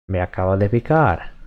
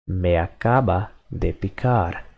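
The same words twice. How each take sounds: First: Me acaba de picar said fast, run together like everyday speech; quick natural speed. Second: Said in the usual way. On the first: Shown as a demonstration.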